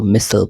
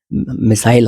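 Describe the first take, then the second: First: मिसल with a swallowed "sl" ending; American pronunciation. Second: मिसाइल with a full "SILE" ending; British pronunciation. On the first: Teacher shows how Americans read missile, American pronunciation. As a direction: say मिसल as "MISS-l". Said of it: "American इसको मिसल पढ़ते हैं". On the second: Teacher shows how we read it, British pronunciation. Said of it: "हम तो मिसाइल ही पढ़ते हैं". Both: Shown as a demonstration.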